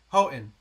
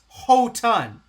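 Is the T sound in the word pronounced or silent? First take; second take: silent; pronounced. First: The T sound is silent. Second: The T sound is clearly pronounced. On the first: This is how locals say it. "we all pronounce it" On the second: This is the standard pronunciation. "It's supposed to be pronounced"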